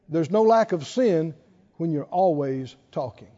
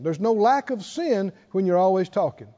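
First: It is said very slowly. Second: It is said at a normal speed.

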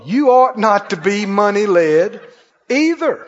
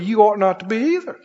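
First: It is said very slowly. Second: It is said at a normal pace.

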